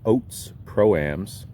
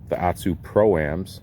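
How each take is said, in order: First: The brand name is said like 'Oats'. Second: The brand name is said the usual way.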